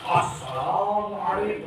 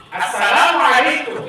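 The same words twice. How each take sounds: First: Drawn out like a sermon, slow and hushed; the wrong way, a slow sermon-style greeting; preachy greeting. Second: Slow, clear classroom greeting; a clear, even greeting to repeat. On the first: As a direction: intone it like a preacher opening a sermon. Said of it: "itu ceramah". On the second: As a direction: say it plainly for the children to copy. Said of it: "Nggak boleh begini". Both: Shown as a demonstration.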